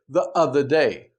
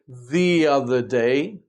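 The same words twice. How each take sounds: First: 'The' has a short vowel and sounds choppy. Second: 'The' has a long E and links smoothly. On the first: The speaker calls it wrong. "it sounds very hesitant, very stilted" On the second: The speaker calls it right. "the transition is much smoother"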